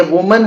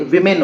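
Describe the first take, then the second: First: वुमन said as woo-man with a u in the first syllable; वुमन, first vowel like put; वुमन read as the singular, woo-man; singular woman. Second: विमेन said as wi-min with an i in the first syllable; विमेन, first vowel like bit; विमेन read as the plural, wi-min; plural women. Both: Shown as a demonstration. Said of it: "यहाँ पे पढ़ते हैं अलग है".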